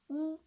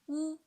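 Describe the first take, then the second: First: The pitch stays high and level. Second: The pitch stays high and level.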